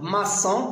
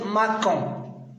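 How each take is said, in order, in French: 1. Le c se prononce comme un s doux. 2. Le c se prononce comme un k dur. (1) "Donc, maçon, parce qu'il y a O" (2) "pour ne pas prononcer macon"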